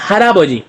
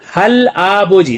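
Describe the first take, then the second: First: The consonant links into the next syllable. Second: The syllables are said separately, as written. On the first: "लेकिन इसका हम जब पढ़ेंगे तो बोलेंगे हराबोजी" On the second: "आगे लिखा है हल आबोजी"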